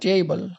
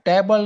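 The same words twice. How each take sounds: First: The first vowel is light and soft. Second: The first vowel is forceful and hard. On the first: The speaker calls it right. "આમાં soft એનો ઉચ્ચાર થશે" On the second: The speaker calls it wrong. "નહીં"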